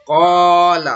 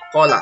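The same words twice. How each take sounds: First: The vowel after q is held long. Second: The vowel after q is cut short. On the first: The speaker calls it right. "jadi dibaca panjang" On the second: The speaker calls it wrong. "Tidak boleh kita baca"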